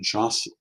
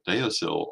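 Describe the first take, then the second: First: It is said closer to the Gaelic way. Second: It is said in a common English-style way. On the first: The speaker calls it right. "it would be closer to Jossil" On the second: The speaker calls it wrong. "That is not how that word is pronounced in Gaelic"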